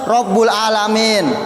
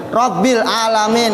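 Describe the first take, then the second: First: The first word ends with an u vowel. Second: The first word ends with an i vowel. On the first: The speaker calls it wrong. "Bidomil ba, dengan doma ba" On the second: The speaker calls it right. "Seharusnya di Quran apa tulisannya?"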